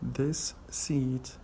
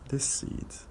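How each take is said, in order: First: The S sound is pronounced twice, separately. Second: The two S sounds merge into one.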